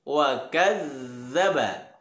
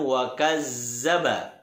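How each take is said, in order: First: The doubled consonant is a soft 'dh' sound. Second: The doubled consonant is a buzzing 'z' sound. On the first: The speaker calls it right. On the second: The speaker calls it wrong. "bukan wa kazzaba"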